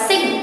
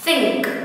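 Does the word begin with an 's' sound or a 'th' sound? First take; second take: s; th. First: The word begins with an 's' sound. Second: The word begins with a 'th' sound. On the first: The speaker calls it wrong. "mình không đọc là sing" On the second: The speaker calls it right. "Ví dụ cô có từ think"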